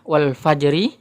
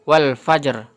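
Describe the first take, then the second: First: The last word ends with a short i vowel. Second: The last word ends on a bare r sound. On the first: The speaker calls it wrong. "yang tadi sebelumnya adalah wal fajri" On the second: The speaker calls it right. "harokat ri-nya ini tidak dibaca menjadi wal fajr"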